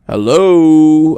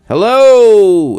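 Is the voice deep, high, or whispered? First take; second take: deep; high. First: It is said in a deep baritone. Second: It is said in a high falsetto.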